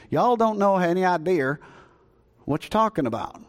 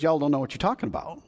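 First: Put-on Jesus done in a folksy Southern accent. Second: Said in the usual way. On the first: Pastor voicing Jesus to the Samaritans, playful Southern accent. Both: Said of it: "If I can put it in Southern".

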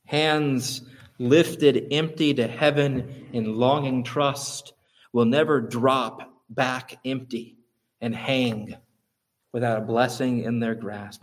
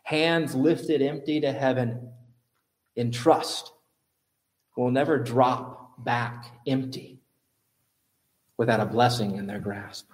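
First: Slow, weighty reading; a preacher closing with a quote, slow and solemn; solemn quotation. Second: Repeating the quote for the congregation, slow and gentle. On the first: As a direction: read the quote with reverence. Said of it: "he says this". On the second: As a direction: let each phrase land. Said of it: "I'll repeat it". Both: Shown as a demonstration.

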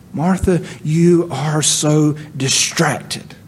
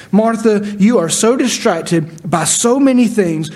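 First: Slow gentle rebuke of a friend; slow tender rebuke. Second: Said in the usual way. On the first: Shown as a demonstration. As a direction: lay each word down slowly and kindly.

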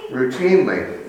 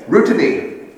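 First: Said in the usual way. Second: Routinely garbled as Routiny, ending clipped; tongue-tied slip. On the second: Real, not acted. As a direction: trip over Routinely and say Routiny. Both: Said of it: "I can't say it now".

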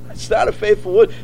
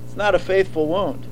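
First: Said in the usual way. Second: Soft warning. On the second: Shown as a demonstration. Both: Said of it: "repeats the phrase".

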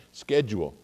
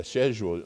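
First: "schedule" said SKED-jool; "schedule" with a hard SK start; American pronunciation. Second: "schedule" said SHED-yool; British pronunciation. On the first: Pastor gives the American SKED-jool. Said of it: "we say schedule". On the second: Pastor tries the English SHED-yool. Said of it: "you say sched". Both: Shown as a demonstration.

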